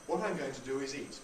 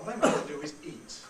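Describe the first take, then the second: First: The word eat begins smoothly, with no catch. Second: The word eat begins with a glottal catch. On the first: "nothing there" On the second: "There's the glottal stop"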